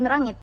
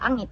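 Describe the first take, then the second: First: The word begins with an R sound. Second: The word begins without an R sound. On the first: This is the Brunei Malay form. "Kalau yang buku rapat Brunei tadi, dia akan sebut nyamuk ataupun rangit" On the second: This is the Kedayan form. "dia akan silentkan rangit kepada angit"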